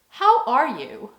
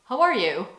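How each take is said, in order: First: The phrase is said slowly as a real question. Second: The phrase is said quickly as a passing greeting. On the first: It is a genuine question expecting an answer. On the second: It just means hello.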